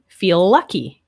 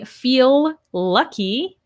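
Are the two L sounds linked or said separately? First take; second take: linked; separately. First: The two L sounds are linked together. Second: Both L sounds are said separately. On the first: The speaker calls it right. "you can hear how that links" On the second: The speaker calls it wrong. "I would not say"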